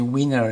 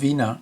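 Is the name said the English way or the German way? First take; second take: English; German. First: The name is said with an English pronunciation. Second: The name is said with a German pronunciation. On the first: This is how the man himself said his name. The speaker calls it right. "that's how he pronounced his name" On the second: This is the original German form of the name. The speaker calls it wrong. "which is the German term"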